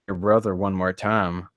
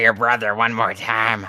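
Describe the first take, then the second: First: The voice is low and deep. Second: The voice is high and squeaky. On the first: "He warns me in a low tone" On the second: "His voice is a bit squeaky"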